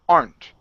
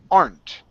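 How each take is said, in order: The two takes are said the same way.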